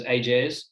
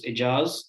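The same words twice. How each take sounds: First: Ajaz said as many people do, opening like "ay"; common mispronunciation. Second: Ijaz said the proper way, opening on a short "i"; proper pronunciation. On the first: Panelist showing how others say the name, mispronounced Ajaz. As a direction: say "Ajaz" the common anglicised way, long first vowel. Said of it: "a lot of people just pronounce it as". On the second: Panelist showing how the name is properly said, correct pronunciation of Ijaz. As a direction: say "Ijaz" as its owner pronounces it, short first vowel. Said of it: "my name properly pronounces".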